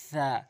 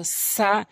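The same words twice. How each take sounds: First: সা as soft "tha", tongue tip on front teeth; quiet "thaa" for সা; light lisped সা. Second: সা with a sharp hissed s, drawn out; strong "saa" for সা; hard seen সা. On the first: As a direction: let air leak softly past the teeth on সা. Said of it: "জিহ্বার আগার সামনে দুটি দাঁতের". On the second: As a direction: press tongue tip behind the teeth for a firm সা. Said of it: "সিন জবর সা শক্ত করে". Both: Shown as a demonstration.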